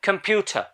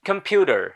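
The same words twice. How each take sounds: First: It is said with a British accent. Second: It is said with an American accent. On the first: "British English এ রটাকে উচ্চারণ করা হয় না" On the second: "But in American English it is pronounced as"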